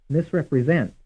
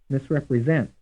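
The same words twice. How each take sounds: The two takes are said the same way.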